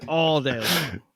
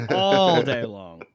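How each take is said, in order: First: Said in the usual way. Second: Put-on slow Boston accent drawl. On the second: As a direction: stretch "all day long" in a Boston accent. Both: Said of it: "talking in the Boston accent".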